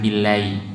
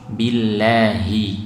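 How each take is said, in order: First: The h sound is changed or dropped. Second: The h sound is pronounced clearly. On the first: The speaker calls it wrong. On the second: The speaker calls it right.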